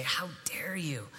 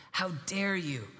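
First: A retold furious line, whispered low and slow; angry whisper. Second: Said in the usual way. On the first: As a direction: hiss it back as she said it, but only in a whisper. Red-faced girl confronting him.

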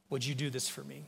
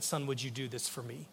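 First: Soft, quiet plea with the weight moved onto "do"; gentle plea, stress on do. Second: Soft, quiet plea with the word "would" lifted on a rising tune; gentle plea, stress on would. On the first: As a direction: ask tenderly again, leaning on "do". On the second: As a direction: ask tenderly, leaning on "would". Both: Retold or imitated. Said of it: "this is how he said it to me".

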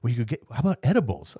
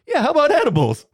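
First: Said in the usual way. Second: High, loud, gleeful echo; mock eager echo. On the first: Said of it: "She goes". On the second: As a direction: bounce it back, loud and way up, delighted. Mocking echo of nurse's offer.

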